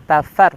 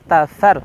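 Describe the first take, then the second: The two takes are said the same way.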